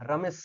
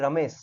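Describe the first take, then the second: First: রমেশ said with an extra hissing s on the end; রমেশ with a clumsy added s. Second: Said in the usual way. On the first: Shown as a demonstration. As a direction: stumble over রমেশ with a tacked-on s. (রমেশ শেষে জোর করে বাড়তি স যোগ করে বলা) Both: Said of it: "আমি এটাকে উচ্চারণ করতে পারবোই না".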